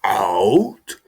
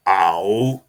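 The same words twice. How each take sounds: First: Boss shouting. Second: Stern boss. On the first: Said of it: "he said again". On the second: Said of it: "he looked at me and he said". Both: Retold or imitated.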